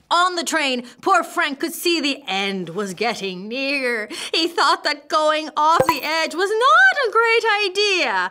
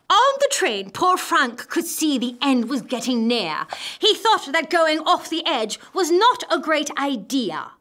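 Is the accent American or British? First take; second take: American; British. First: It is read in an American accent. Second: It is read in a British accent.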